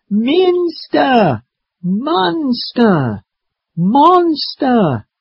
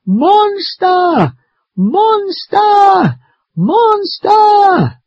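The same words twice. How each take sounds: First: Long, high-pitched drawn-out calls; yelling. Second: Very high, long full-voiced screams; very loud yell. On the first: Acted. Maddie calls out as everyone looks, drawn-out yell. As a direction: stretch each word into a high call. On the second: Maddie in the tree screams for grandfather, very loud yell. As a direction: yell each word at the top of your range. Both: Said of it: "I yell very loudly".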